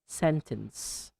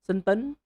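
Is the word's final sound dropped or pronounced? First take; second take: pronounced; dropped. First: The final sound of the word is clearly pronounced. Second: The final sound of the word is dropped. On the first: The speaker calls it right. "You should say sentence" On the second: The speaker calls it wrong. "not sentencey or senten"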